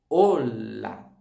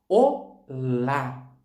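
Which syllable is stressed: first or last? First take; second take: first; last. First: The stress is on the first syllable. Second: The stress is on the last syllable. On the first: This is the Spanish word. "A sílaba mais forte está no O" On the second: This is the Portuguese word. "Em português, a gente fala olá"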